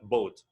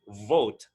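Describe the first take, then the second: First: The word begins with a B sound. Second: The word begins with a breathy V sound. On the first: The speaker calls it wrong. "not boat" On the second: The speaker calls it right. "it should be pronounced with a V, with some air"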